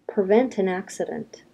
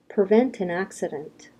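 Both takes have the same delivery.

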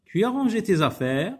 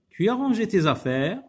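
First: It is said with questioning intonation. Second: The same.

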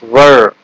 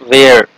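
First: The vowel sounds like 'er'. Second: The vowel sounds like 'air'. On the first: The speaker calls it right. "it's were" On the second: The speaker calls it wrong. "Many people pronounce this word where, but it's not where"

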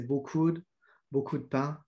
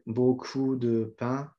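First: The e in de is dropped, said fast. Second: The e in de is fully pronounced.

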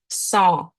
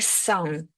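First: The word ends in a nasal vowel, no consonant. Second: The word ends with an audible n consonant. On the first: The speaker calls it right. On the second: The speaker calls it wrong.

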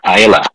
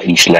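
First: The s sound is silent in the name. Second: The s sound is pronounced in the name. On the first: The speaker calls it right. "Walang, walang S" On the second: The speaker calls it wrong. "Hindi pala isla ang pronunciation yan"

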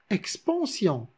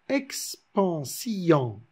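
First: The i and o merge into one syllable. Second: The i and o are split into two syllables. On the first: "logiquement, naturellement, on le prononce expansion" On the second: "afin de respecter la métrique du verbe, il se prononce expansion"

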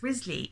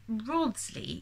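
First: The name is said like 'Risley'. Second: The name is said like 'Rodsley'. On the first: The speaker calls it right. "It's Risley, is how we're supposed to pronounce that" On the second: The speaker calls it wrong. "He says Rodsley"

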